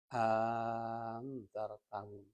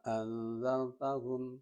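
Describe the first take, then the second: First: Second glottal stop replaced by a very long vowel. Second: Two glottal stops with a short lengthened vowel between. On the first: "Hamzah yang kedua diganti alif ... panjangnya itu tiga alif atau enam harokat" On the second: "di antara dua hamzah itu dimasuki atau dimasukkan alif mad tabi'i"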